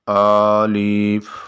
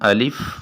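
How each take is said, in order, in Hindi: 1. पहला स्वर लंबा खींचा हुआ है। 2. पहला स्वर छोटा और सीधा है। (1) "खींच के पढ़ रहे होते हैं" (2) "सिंपल तरीके से पढ़ना है"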